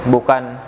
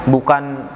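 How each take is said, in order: Both takes have the same delivery.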